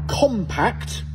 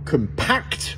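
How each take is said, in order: First: The stress is on the first syllable. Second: The stress is on the second syllable. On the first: It is the adjective meaning small. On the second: It is the verb meaning to compress.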